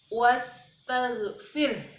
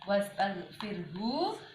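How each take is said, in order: First: The word stops on the final r. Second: The word ends with an added hu syllable. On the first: The speaker calls it right. "melainkan wastaghfir" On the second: The speaker calls it wrong. "tidak dibaca wastaghfirhu"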